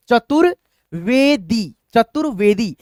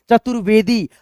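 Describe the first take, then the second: First: Very slow word, pauses between parts; धीमा, तोड़कर. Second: Quicker, joined-up reading; speed में पढ़ना. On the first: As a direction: sound it out in separate pieces. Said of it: "एक एक अक्षर को तोड़ करके". (धीरे-धीरे अक्षर तोड़कर) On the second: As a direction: say it as one unbroken word. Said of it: "इसको हम स्पीड में आपको पढ़ करके". (जोड़कर तेज़ी से पढ़ना) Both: Shown as a demonstration.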